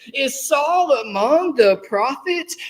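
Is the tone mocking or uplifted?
uplifted. It sounds amazed and admiring.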